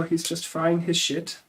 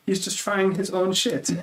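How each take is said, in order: First: Higher bad German accent, stress on "frying"; hammed-up bad German accent, lean on "frying"; imitating a friend's accent as a bad German one. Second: Slower, higher bad German accent, "frying" stressed; hammed-up German accent, drawn-out punchline. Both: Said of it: "I'm gonna butcher his accent right now".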